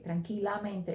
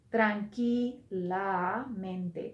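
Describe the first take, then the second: First: Said in the usual way. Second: Slow model. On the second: Shown as a demonstration. Teacher models the adverb slowly.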